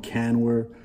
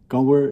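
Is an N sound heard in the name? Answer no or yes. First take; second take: yes; no. First: The name is said with an N sound. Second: The name is said with no N sound. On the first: The speaker calls it wrong. "all of these are just mispronunciations of my name" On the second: The speaker calls it right. "So you don't pronounce the N"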